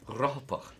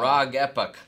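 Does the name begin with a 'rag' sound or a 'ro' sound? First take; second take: ro; rag. First: The name begins with a 'ro' sound. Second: The name begins with a 'rag' sound. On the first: The speaker calls it right. "but it's Rohapoch" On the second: The speaker calls it wrong. "because I was saying like Rag Epoch or something like that"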